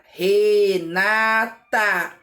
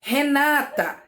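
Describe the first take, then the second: First: Renata slowly, each syllable opened wide; Re-na-ta, mouth opening per syllable; syllables spelled out. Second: Said in the usual way. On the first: Shown as a demonstration. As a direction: Renata split into slow syllables. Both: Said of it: "Quantas vezes eu abro a minha boca pra falar?".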